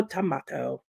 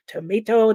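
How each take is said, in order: First: Tomato said as "tomahto" with a broad A; tomato, British way. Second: Tomato said as "tomayto" with a long A; tomato, American way. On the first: Reading chat about Babel, British tomato. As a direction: say "tomato" as toh-MAH-toh. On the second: Reading chat about Babel, American tomato. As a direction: say "Tomato" as toh-MAY-toh. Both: Shown as a demonstration. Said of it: "has two pronunciations".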